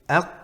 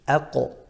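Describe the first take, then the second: First: The qaf is held closed with no echo. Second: The qaf is released with a bouncing echo.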